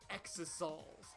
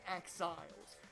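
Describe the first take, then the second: First: It has three syllables, like ex-o-sols. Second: It has two syllables, like exiles. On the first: The speaker calls it wrong. "I hate that it's pronounced exosols" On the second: The speaker calls it right. "It should be exiles"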